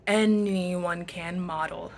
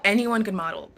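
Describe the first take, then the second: First: "Anyone can model" drawn out at half speed; slow emphatic repeat. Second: Said in the usual way. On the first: Real, not acted. Repeats answer slowly for emphasis.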